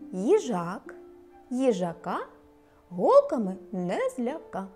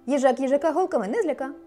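First: The sentence is spoken at a slow pace. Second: The sentence is spoken at a very fast pace. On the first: "Спочатку повільно" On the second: "А тепер ще швидше"

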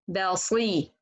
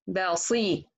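Both takes have the same delivery.

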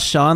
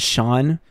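First: The name is said as spelled, starting with s. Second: The name is said as Shawn, starting with sh. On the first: "like it's spelled" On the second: "rather than Sean"

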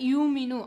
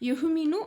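First: A long vowel is heard with no glottal stop. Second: A glottal stop is heard before the m. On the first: "ஹம்சாவை இலகுவாக யூமினு" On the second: "யுஹ்மினு அப்படின்னு சொல்லுவாங்க"

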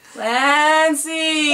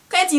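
First: It is said in an eerie, ghostly voice. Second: It is said in a normal calling voice.

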